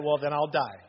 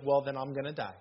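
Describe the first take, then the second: First: A hint of the wife, calm and matter-of-fact; deadpan wife. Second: Matter-of-fact wife's line, quoted lightly; deadpan wife. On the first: Shown as a demonstration. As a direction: repeat her line dead serious. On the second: Retold or imitated. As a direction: toss it off as the wife would. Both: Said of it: "That's exactly how she said it".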